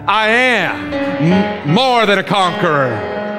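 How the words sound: It is said forcefully, with fighting defiance.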